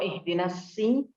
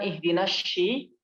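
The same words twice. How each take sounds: First: The s sound is thin and light. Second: The s sound is thick and heavy. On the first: The speaker calls it wrong. "bukan sin" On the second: The speaker calls it right.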